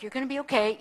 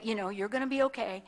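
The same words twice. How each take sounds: First: Said in the usual way. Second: Softer, quicker "you're gonna be okay" while hugging her; soft reassurance. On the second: Retold or imitated. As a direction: soothe her gently as you hold her. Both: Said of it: "kinda hugged her like".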